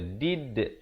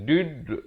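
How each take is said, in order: First: The final d echoes with an i-like sound. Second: The final d echoes with a u-like sound. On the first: The speaker calls it right. "lihat bibir saya, lihat mulut saya" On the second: The speaker calls it wrong. "bukan dud, itu tak betul ya"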